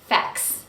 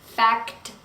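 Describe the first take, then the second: First: The middle t is dropped, leaving k and s. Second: All three final consonants k, t, s are pronounced. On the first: The speaker calls it right. "we drop the middle one. We drop the T" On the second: The speaker calls it wrong. "If I pronounce all three consonants, it is fact, and it's really hard to say"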